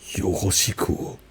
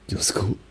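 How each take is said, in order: First: It is said with a German accent. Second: It is said Japanese-style, clipped and aggressive. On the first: "And then German would be" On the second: "That was like just Japanese, but weirdly aggressive"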